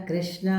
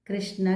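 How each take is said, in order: The two takes are said the same way.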